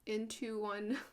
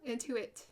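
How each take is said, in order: First: The name ends with the word 'one'. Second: The name ends with the sound 'it'. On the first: The speaker calls it wrong. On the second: The speaker calls it right.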